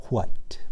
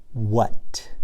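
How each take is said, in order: First: "what" said as "hwat"; breathy WH in what. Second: Said in the usual way. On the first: Shown as a demonstration. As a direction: start "what" with an airy H sound before the W. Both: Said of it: "some people say it like this".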